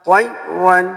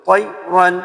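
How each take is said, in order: The two takes are said the same way.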